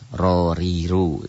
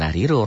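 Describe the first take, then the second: First: The first r is thick, with a darkened a. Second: The first r is thin, with a light a. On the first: The speaker calls it right. "tafhim, tebel" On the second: The speaker calls it wrong. "bukan rariru"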